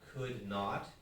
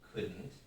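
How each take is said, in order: First: The word not is said in full. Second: The word not is reduced to a contraction. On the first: "有一个音节不见 could not" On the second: "we lose a syllable"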